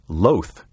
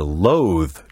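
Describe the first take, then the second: First: The word is said like the adjective loath. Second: The word is said like the verb loathe. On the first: The speaker calls it right. "Say you are loath to do it" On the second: The speaker calls it wrong. "Do not say you are loath to do something"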